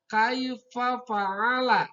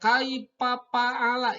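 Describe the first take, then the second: First: The f is made with teeth on lower lip. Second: The f is made with both lips together. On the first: The speaker calls it right. "Yang benar adalah kaifa fa'ala" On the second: The speaker calls it wrong. "Kalau kaifa fa'ala itu salah"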